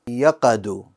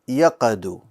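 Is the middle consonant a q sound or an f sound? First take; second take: q; q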